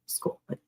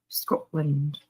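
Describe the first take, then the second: First: Said in the usual way. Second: "Scotland" with a rolled Scottish r and a clipped end; Scottish accent. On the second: Shown as a demonstration. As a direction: say "Scotland" the way a Scot would. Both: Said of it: "with a good Scottish accent is".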